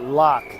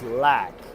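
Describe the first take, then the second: First: The vowel is an open 'o' as in lock. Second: The vowel is a flat 'a' as in lack. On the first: The speaker calls it wrong. "The pronunciation is not lock" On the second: The speaker calls it right. "it is lack. As in lacking"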